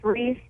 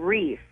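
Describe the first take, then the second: First: The word ends with a th sound. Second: The word ends with an f sound. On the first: The speaker calls it right. "a Christmas wreath?" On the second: The speaker calls it wrong. "I've been saying reef, like R-E-F-F"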